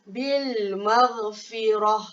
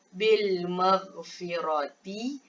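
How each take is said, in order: First: The last word ends with an h sound. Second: The last word ends with a t sound and vowel. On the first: The reader stops at this word. "bacaan yang betul" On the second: The reader continues without stopping. "tukar kepada"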